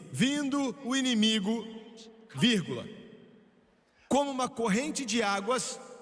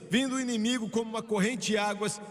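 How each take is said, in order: First: There is a clear pause after inimigo. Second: It runs on with no pause after inimigo.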